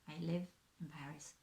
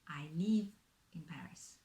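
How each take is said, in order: First: The vowel is a short, lax i sound. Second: The vowel is a tense, French-style i sound. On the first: The speaker calls it right. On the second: The speaker calls it wrong.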